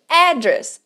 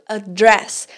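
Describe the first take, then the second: First: The stress is on the first syllable. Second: The stress is on the second syllable. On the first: The speaker calls it right. "a sílaba tônica aqui é logo no começo da palavra" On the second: The speaker calls it wrong. "aqui a gente não está falando address"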